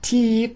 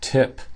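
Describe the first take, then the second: First: The vowel is a long ee sound. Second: The vowel is short and low. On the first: The speaker calls it wrong. "It's not E, it's not teep" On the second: The speaker calls it right. "Vowel sound is short and low"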